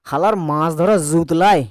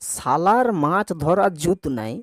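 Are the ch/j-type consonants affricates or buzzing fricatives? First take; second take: fricative; affricate. First: The consonants are buzzing z-like fricatives. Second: The consonants are plain affricates.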